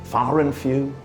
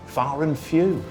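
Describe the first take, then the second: No difference in how they are said.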